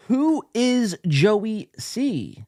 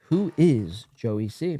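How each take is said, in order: First: High, very slow, each word set apart; drawn-out title reading. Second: Slow, lower repeat of the title; low pondering repeat. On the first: Host reads the show's title out to viewers, drawn out. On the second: Host repeats the odd title to himself, low and slow. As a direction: drop the pitch and ponder it slowly. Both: Acted.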